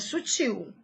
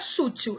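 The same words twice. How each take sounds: First: The stress falls on the standard syllable. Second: The stress falls on a misplaced syllable. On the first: The speaker calls it right. "é" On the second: The speaker calls it wrong. "não é"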